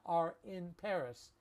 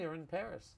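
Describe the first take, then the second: First: The word 'in' is said in full. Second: The word 'in' is reduced to 'n'. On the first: "We have and and in" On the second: "here's how I would say it"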